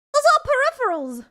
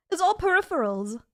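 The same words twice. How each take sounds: First: Much higher, louder protest; exasperated insistence. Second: Said in the usual way. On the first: Real, not acted. Streamer corrects chat on the desk clutter, exasperated. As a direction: insist on it in a high, loud voice.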